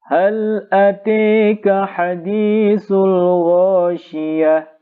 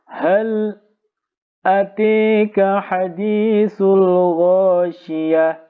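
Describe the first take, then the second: First: The words run on without a break after 'hal'. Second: There is a brief break after 'hal'. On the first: "Sekarang kita baca yang Imam Hamzah" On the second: "Imam Khalaf membaca dengan saktah"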